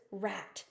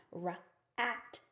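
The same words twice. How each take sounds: First: Said in the usual way. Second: Rat drawn out as Ra-at, the vowel held long; stretched sounding out. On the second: Shown as a demonstration. Teacher sounding out rat for a student, stretched. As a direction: sound out Ra-at slowly, sound by sound. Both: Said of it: "The word is rat".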